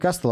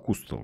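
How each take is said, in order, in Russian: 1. Первый гласный звучит как 'a'. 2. Первый гласный звучит как 'u'. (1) "не Кастл" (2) "а Кустл читается"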